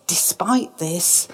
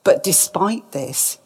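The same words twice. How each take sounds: First: Whisper. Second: Said in the usual way. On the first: Shown as a demonstration. Repeated phrase whispered for effect.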